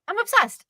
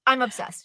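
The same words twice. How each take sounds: First: Pitched way up, gushing; high gushing I'm obsessed; excited. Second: Said in the usual way. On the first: Real, not acted. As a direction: squeal it like a fan. Repeating excitedly about a show.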